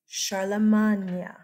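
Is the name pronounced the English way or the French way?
French. The name has a French pronunciation. The speaker calls it right. "he's French. And it's medieval French"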